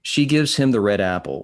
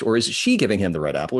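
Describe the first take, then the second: First: Said in the usual way. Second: "she" stressed, question rising. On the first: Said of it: "Is it she giving her the red apple". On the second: Shown as a demonstration. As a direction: punch "she" as the one giving. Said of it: "that's inflection".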